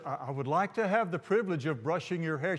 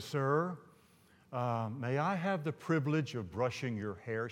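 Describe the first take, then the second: First: Said in the usual way. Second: Timid, softened acted voice; hushed, reluctant polite request; real soft request. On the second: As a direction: ask it softly and hesitantly. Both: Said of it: "She says it real softly".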